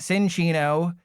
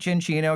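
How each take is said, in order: First: The name begins with a different sound, unlike chinchilla. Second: The name begins with a 'chin' sound, like chinchilla. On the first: The speaker calls it wrong. "It's not Cinccino" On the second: The speaker calls it right. "I'll try to pronounce it Cinccino because it's a chinchilla"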